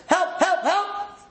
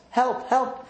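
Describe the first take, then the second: First: Hammed-up damsel scream. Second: High mock cry of help from a princess. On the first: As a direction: ham up the helpless princess screaming. Princess screams during mock kidnapping. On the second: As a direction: lightly play the damsel calling out. Princess in distress in story.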